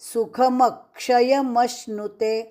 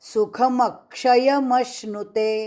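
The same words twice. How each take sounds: No difference in how they are said.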